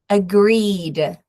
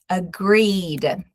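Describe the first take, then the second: The two takes are said the same way.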